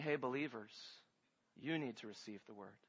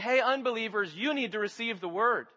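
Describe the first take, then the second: First: Very soft and much lower; hushed address. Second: Said in the usual way. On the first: Acted. Preacher voices James speaking to believers, hushed and low. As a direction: drop to a low, intimate murmur. What James says, contrasted softly.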